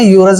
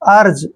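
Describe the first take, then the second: First: The word starts with a 'yoo' sound. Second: The word starts with an 'er' sound. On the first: The speaker calls it wrong. "इसको हमने यूरज नहीं पढ़ना है" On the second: The speaker calls it right. "इसको पढ़ेंगे हम अर्ज"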